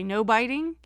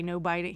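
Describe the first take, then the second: First: Lightly imitating a talking pet bird, louder; Snips. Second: Said in the usual way. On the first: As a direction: echo the phrase like a bird, lifting at the end. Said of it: "He'll say". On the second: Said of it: "'Cause we say".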